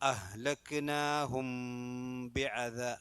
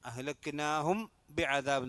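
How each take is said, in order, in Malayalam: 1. b ക്ക് മുമ്പ് m നാസിക ഹമ്മോടെ പിടിക്കുന്നു. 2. b ക്ക് മുമ്പ് m ചെറുതും സാധാരണവുമാണ്. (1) "അവിടെ മീമ് കുറച്ച് മണിച്ചിട്ട് ഓതണം" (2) "എന്നല്ല"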